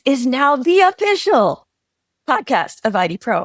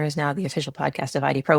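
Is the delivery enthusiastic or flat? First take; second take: enthusiastic; flat. First: It is said in an excited, enthusiastic tone. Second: It is said in a flat, unexcited tone. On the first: The speaker is extremely excited about the news. "oh my God, ... there's some enthusiasm here" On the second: The news is stated calmly without excitement. "You said it in just a, a lovely, you know, flat tone"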